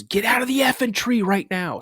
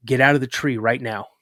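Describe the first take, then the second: First: High, urgent retold yell; sharply raised voice, ordering the kid down; exasperated order. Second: Retold order, controlled and serious; firm order. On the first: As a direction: imitate dad losing patience. Dad's order escalates, retold. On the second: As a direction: tell the kid firmly, without yelling. Dad's first retold order.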